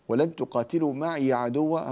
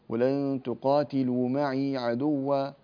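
First: The ya of maʿi carries a short vowel. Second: The ya of maʿi is silent and held long. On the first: This is one recognised reading of the verse. "هذا حفص" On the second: This is another recognised reading of the verse. "فتسكن الياء وتمدها بمقدار حركتين"

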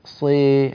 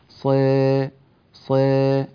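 First: The vowel leans strongly toward an 'ee' sound. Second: The vowel leans only slightly toward an 'ee' sound. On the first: The speaker calls it wrong. "هذه إمالة" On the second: The speaker calls it right. "هذا هو التقليل"

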